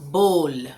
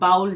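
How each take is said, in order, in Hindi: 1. स्वर 'oh' जैसा बोला जाता है। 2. स्वर 'ow' जैसा बोला जाता है। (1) "इसे बोलते हैं बोल" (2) "बाउल जो है वो गलत है"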